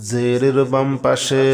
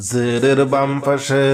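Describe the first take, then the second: No difference in how they are said.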